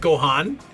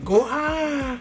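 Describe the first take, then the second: First: The word is said fully, with the final n. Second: The word is cut short, without the final n. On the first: This is the proper full pronunciation. "It doesn't like fully pronounce it. It's not like" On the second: This is how the cat says it. "It's just like"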